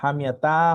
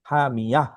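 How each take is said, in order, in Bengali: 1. শব্দটি t ধ্বনি দিয়ে শেষ হয়। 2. শব্দটি h ধ্বনি দিয়ে শেষ হয়। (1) "হা মিয়া তা হবে না" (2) "ওয়াকফ হলে যজমালা হা হয়ে যায়"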